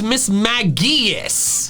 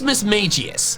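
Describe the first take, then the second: First: The middle part is said with a hard G. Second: The middle part sounds like the word 'mage'. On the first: This is the official form. "The official pronunciation ... The hard G is ridiculous" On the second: The name is taken to come from mage. "I say it the way I do because I assume the middle part of its name comes from mage"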